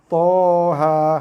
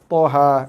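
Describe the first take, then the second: First: Both vowels are held long. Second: Both vowels are cut short. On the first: The speaker calls it right. "To baca dengan baris atas dua harakat, ha baca dengan baris atas dua harakat" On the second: The speaker calls it wrong. "barisnya betul, harakatnya tak cukup"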